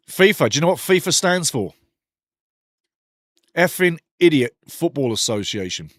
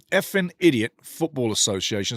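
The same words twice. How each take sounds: First: Louder mocking punchline with the word Effing hammered; punchline joke. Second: Said in the usual way. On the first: Shown as a demonstration. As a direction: shout out the joke: Effing Idiot Football Association. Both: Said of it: "There you go".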